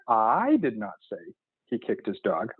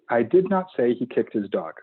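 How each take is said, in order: First: The word I is stressed. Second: No word is given special stress. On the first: He kicked the dog, but someone else said so. "I'm just not the one who said it" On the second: A neutral statement of fact. "Clear, concise, simple written statement"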